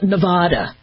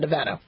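First: It is said in a fancier-sounding way. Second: It is said in the plain local way. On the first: Outsiders mispronounce the state's name. The speaker calls it wrong. "people call it Nevada. You know, like they're trying to make a Marbuji sounding" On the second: This is how residents say the state's name. The speaker calls it right. "I live in Nevada"

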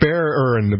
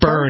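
First: The name part is said as two syllables. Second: The name part is said as one syllable. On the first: The speaker calls it right. "it's Beren" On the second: The speaker calls it wrong. "It's not Bern"

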